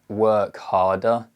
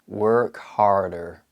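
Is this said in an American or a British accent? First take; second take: British; American. First: It is said in a British accent. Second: It is said in an American accent.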